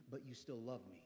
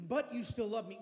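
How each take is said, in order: First: Soft, low-voiced plea to God; hushed prayer. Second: Louder prayer. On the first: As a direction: whisper it like a private prayer. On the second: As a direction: declare it with growing force. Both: Shown as a demonstration. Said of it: "look at God and say".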